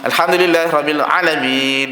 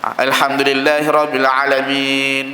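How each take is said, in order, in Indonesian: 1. Vokal setelah ain dibaca pendek. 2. Vokal setelah ain dibaca pendek.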